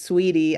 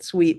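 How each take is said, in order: First: The name is said as two syllables. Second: The name is said as one syllable. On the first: The speaker calls it right. "but it is sweetie" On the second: The speaker calls it wrong. "I said sweet"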